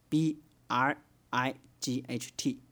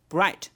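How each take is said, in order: First: Each letter is named separately, one by one. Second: It is pronounced as one whole word. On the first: The letters are treated as separate characters. "按照字母发音，那它就把这个字母老老实实的一个一个给你读出来" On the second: The letters are treated as a word. "如果是单词发音呢，哎，他就说bright"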